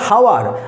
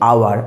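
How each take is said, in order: First: The word begins with an h sound. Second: The word begins with a vowel sound. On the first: The speaker calls it wrong. "আমরা কিন্তু বলছি না হাওয়ার" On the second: The speaker calls it right. "আমরা বলছি আওয়ার"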